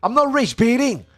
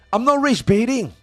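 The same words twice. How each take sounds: The two takes are said the same way.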